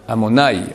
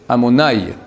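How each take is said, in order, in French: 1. L'accent est sur la première syllabe. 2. L'accent est sur la première syllabe.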